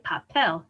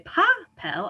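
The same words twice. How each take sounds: First: "papel" as pa-PEL; last-syllable stress. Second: "papel" misstressed as PA-pel; wrong first-syllable stress. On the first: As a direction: put the weight at the end of "papel". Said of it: "last syllable". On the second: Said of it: "I don't say papel". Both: Shown as a demonstration.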